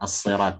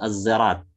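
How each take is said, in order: First: The word begins with an emphatic s sound. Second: The word begins with a z sound. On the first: "dengan huruf sad" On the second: "dengan zai"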